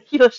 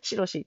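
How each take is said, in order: First: The name begins with an 'h' sound. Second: The name begins with an 'sh' sound. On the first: This is the name's standard pronunciation. "広しなのに" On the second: Old-fashioned speech turns 'hi' into 'shi'. "ひが、しになっちゃうんですよ"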